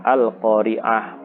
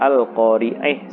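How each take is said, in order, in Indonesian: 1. Vokal sebelum h akhir adalah 'ah' terbuka. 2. Vokal sebelum h akhir condong ke 'eh'. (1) "tetap dibaca fathah" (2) "dibaca imalah al-qari'ih"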